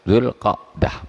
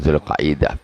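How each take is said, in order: First: The 'ain closes 'qa' with no following vowel. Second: An extra 'i' vowel follows the 'qa' sound. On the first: The speaker calls it right. "Ainnya di sukun" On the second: The speaker calls it wrong. "Zulqaidah salah itu. Total salahnya"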